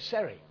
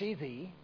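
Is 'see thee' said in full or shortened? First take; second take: shortened; full. First: The two words are run together and reduced. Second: Both words are said fully and separately. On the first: "We shorten it to, ... We say Sari" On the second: "instead of see thee"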